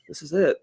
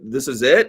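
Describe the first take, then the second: First: The phrase is mumbled indistinctly. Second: The phrase is said clearly and distinctly.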